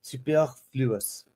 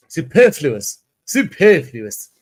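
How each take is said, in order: First: Slow, softer attempt at a French accent. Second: Su-PER-fluous with a loud, drawn-out PER; plain English pronunciation. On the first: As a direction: try "superfluous" as if it were French, drawn out. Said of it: "in a French accent because I believe". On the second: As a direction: say "Superfluous" in English, punching the second syllable. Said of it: "I won't do it in a French accent". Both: Shown as a demonstration.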